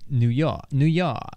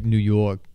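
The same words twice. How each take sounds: First: New York with an open Boston ah; Boston accent. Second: New York with a rounded Brooklyn vowel; Brooklyn accent. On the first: Showing co-host the difference, Boston accent. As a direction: drop the r, Boston "New Yah". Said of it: "Boston would be like". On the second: Correcting the co-host, Brooklyn accent. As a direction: say "New Yawk", Brooklyn style. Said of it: "uh, like Brooklyn". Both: Shown as a demonstration.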